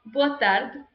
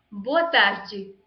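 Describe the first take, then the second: First: "Boa tarde" cut to "tard" at the end; Portugal pronunciation. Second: "Boa tarde" with tarde as "tar-jee"; Brazilian pronunciation. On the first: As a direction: European style, tarde stops on its d. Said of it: "In Portugal". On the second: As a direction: soften the end of tarde to "jee". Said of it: "In Brazil". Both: Shown as a demonstration.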